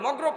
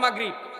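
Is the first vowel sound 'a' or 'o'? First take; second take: o; a. First: The first vowel sounds like 'o'. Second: The first vowel sounds like 'a'. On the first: The speaker calls it wrong. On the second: The speaker calls it right.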